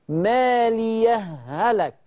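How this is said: The two h sounds merge into one doubled h. "يبقى الهاء هنا مشددة"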